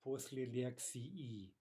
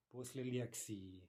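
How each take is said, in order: First: Slow, careful "После лекции" with the final и drawn out into a full two-syllable и-и; ending said very clearly. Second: Said in the usual way. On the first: Shown as a demonstration. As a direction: spell out "лекции" slowly, every syllable distinct. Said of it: "if we say that ending very clearly". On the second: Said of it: "it should be two syllables".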